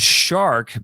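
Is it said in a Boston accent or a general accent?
general. The r is sounded in a general accent.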